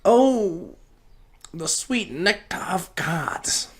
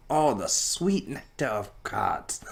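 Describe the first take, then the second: First: High breathy rapture over the sweet nectar; hammed-up savoring. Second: Said in the usual way. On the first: Podcaster after a weed hit, in mock rapture. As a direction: swoon over it like a nobleman tasting wine.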